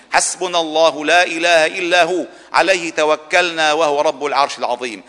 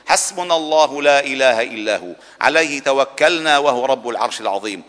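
No difference in how they are said.

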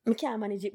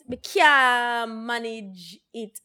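First: Said in the usual way. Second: Very slow, stretching Me can't manage it; a slow, emphatic Me can't manage it; drawn-out repeat. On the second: Real, not acted. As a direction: drag each word of Me can't manage it out.

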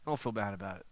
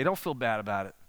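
First: Softer, gentle repeat of "Don't feel bad about it."; a soft, comforting echo; soft reassurance. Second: Said in the usual way. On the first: Shown as a demonstration.

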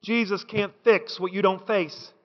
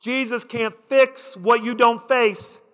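First: Softer and low, let it land; quiet first take. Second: Slower, lean on fix and face; slower second take. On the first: Preacher softly first says it to the church. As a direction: quietly set up the key line. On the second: Preacher repeats it slower for the congregation. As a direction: press the words fix and face home. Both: Real, not acted. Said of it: "repeated line".

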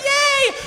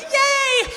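First: Even higher, louder mock cheer; crowd cheer. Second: Crowd cheer. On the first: Tourists seeing more fins, cheering high. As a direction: squeal it with more glee. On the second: Retold or imitated. Tourists seeing a shark fin, cheering high. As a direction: squeal it like a thrilled tourist. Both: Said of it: "and everyone goes".

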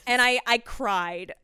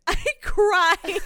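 First: Said in the usual way. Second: High, loud hammed-up wail; exaggerated tearful cry, half laughing; mock crying. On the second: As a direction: wail it as if bawling with relief.

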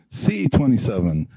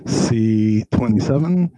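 First: Said in the usual way. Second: Slow, drawn-out number call; bingo caller. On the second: Pretend. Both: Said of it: "Magic Mike looks like a bingo caller".

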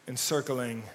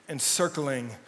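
The two takes are said the same way.

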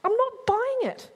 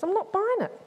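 First: NOT hit hard, higher, louder and slower; doubting disciple digging in, stress on not. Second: Higher, louder, stress on buying; doubting disciple refusing, stress on buying; skeptical Thomas. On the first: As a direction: punch the word not in stubborn refusal. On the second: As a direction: lean hard on buying, arms folded. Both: Acted. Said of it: "He folds his arms, frowns, tilts his head, goes".

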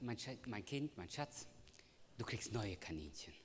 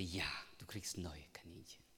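First: Put-on softer, gentle consoling of a child; tender comfort. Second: Put-on soft whispered promise to a child; whispered reassurance. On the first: Father consoling his crying daughter, softly tender. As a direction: soothe her like a sad little girl. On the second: Father whispering a promise to his daughter. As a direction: whisper the comfort to her.

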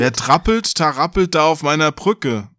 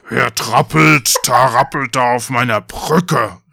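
First: Said in the usual way. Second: Slow, loud troll growl; drawn-out monster challenge; troll calling out. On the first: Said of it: "schon wieder falsch vorgelesen". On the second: A narrator's reading. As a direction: roar it slowly as the troll. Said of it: "rief der Troll".

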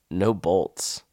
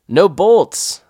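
First: Said in the usual way. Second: Loud high yell across the cliff. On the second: Retold or imitated. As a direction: shout it down to your partner. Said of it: "I yelled back to him".

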